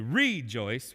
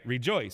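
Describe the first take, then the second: First: The stress is on the first syllable. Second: The stress is on the second syllable. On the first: The speaker calls it wrong. "we don't say rejoice" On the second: The speaker calls it right. "the joice gets the emphasis"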